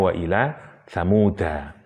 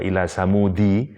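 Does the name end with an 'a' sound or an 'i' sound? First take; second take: a sound; i sound. First: The name ends with an 'a' vowel. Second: The name ends with an 'i' vowel. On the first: The name is treated as a tribe name. "pendapat yang paling kuat" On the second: The name is read in the genitive case. "ada qiraah yang membaca majrur"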